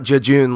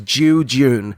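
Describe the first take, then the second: First: The word is said very quickly. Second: The word is said slowly, each part drawn out. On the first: The speaker calls it wrong. "like really quickly" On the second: The speaker calls it right. "I think you're not fully pronouncing the word"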